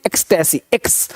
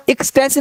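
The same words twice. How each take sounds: First: एक्सटेसी starting on "eks"; lower, falling एक्सटेसी with an "e" first; open e onset. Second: एक्सटेसी starting on an "i" as in "ik"; wrong first vowel. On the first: Teacher correcting the first vowel, "eks" onset. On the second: Teacher showing what not to say, "i" onset. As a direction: say एक्सटेसी as "iks-tesi". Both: Shown as a demonstration. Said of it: "यहाँ का एक्सटेसी नहीं".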